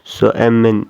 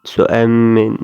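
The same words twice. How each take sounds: First: I am is contracted into one syllable. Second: The same.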